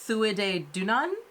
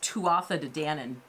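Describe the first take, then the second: First: The name is said in a shortened Irish-style form. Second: The name is said the way it is spelled. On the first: This is the pronunciation the speaker looked up. The speaker calls it right. "in learning what the pronunciation is, it looks like it's" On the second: This is the speaker's habitual way of saying it. The speaker calls it wrong. "I would normally say this"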